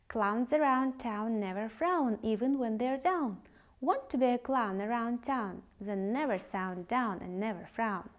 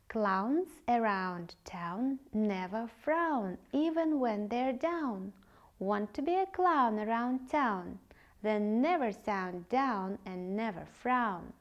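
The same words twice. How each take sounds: First: It is said at a fast speed. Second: It is said at a normal speed.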